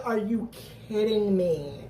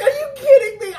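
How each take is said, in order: First: Said in the usual way. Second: High, loud disbelieving yell; shocked shout. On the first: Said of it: "I said". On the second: Retold or imitated. Watching the episode, yelling at the screen in shock. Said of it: "that's what I was just like".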